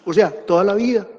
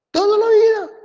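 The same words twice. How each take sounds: First: Said in the usual way. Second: Much higher, pushed echo of the phrase; emphatic echo. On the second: Real, not acted. Teacher hammers the sentence home to students, high emphatic echo. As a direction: echo "Toda la vida" high and pointed, stress on "vida".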